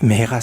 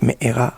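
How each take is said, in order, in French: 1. Le milieu a un son h clair. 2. Le milieu a un coup de glotte, pas un h. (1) "Mehera c'est avec un E" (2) "mais avec Mehera avec un Aleph"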